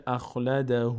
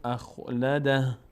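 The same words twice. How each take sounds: First: اخلده ending in a drawn-out "hu"; continuing form. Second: اخلده slowly, ending on a breathy "dah"; stopping form. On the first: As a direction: carry اخلده on as "akhladahuu". («اخلده» با ضمهٔ کشیده در آخر) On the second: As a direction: stop on the h of اخلده, no final vowel. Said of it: "چون توقف کردیم این ضمه میفته". («اخلده» با وقف روی هاء) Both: Shown as a demonstration.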